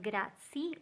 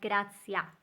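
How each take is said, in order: First: The word ends without a final vowel. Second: The word ends with an a vowel. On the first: "Not grazie" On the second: "or not grazia"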